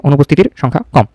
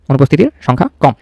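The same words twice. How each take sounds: The two takes are said the same way.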